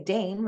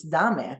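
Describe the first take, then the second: First: "dame" in English, one syllable rhyming with name; English "dame", sounded daym; English pronunciation. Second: "dame" in Spanish, two syllables, DAH-meh; Spanish "dame", stressed on the first syllable; Spanish pronunciation. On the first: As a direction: say "dame" with a long A and silent E. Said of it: "In English, you say dame". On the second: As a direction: say "dame" with an open A and sounded E. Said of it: "in Spanish, it's dame". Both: Shown as a demonstration.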